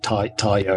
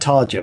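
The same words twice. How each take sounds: First: The r is rolled and j sounds like y. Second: The r is plain and j sounds like jam. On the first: The speaker calls it right. "you roll the R and it's like a Y sound" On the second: The speaker calls it wrong. "I call it Tarja"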